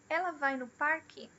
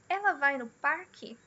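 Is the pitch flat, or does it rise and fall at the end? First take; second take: rise-fall; rise-fall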